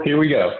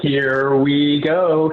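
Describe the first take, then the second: First: Said in the usual way. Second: Very slow and drawn out, a bit louder; playful dance cue. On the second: Pretend. Host answering a viewer's dance request, slow, stretched and louder. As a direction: stretch each word like a hype-up before dancing. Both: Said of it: "I wanna see the dance moves".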